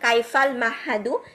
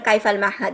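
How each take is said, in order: First: The last word ends with a final vowel. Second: The last word ends on a bare consonant. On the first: This is careful learner-style reading with all vowel endings. "আমরা হারাকাগুলা বলবো" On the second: This is how it is said in normal conversation with Arabs. "ওখানে হারাকাটা বলবেন না"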